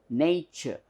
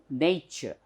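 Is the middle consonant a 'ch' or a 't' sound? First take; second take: ch; ch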